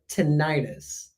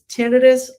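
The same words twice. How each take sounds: First: The end of the word sounds like 'itis'. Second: The start of the word sounds like 'tennis'. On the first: "like itis" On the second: "like tennis"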